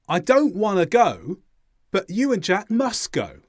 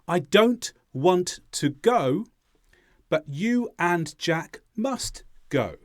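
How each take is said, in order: First: Final T and D sounds are dropped, fast speech. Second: Final T and D sounds are clearly pronounced. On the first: "this is the way that we would say these sentences in fast English" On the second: "Here are the sounds added back in"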